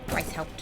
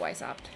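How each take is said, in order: First: The name is said with the H sound. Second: The name is said without the H sound. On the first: The speaker calls it right. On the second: The speaker calls it wrong.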